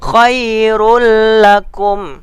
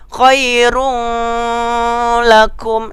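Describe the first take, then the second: First: No nasal hum is heard before the l. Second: A nasal hum is heard before the l. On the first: The speaker calls it right. "tidak berdengung" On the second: The speaker calls it wrong. "Jangan dibaca khairul lakum. Salah"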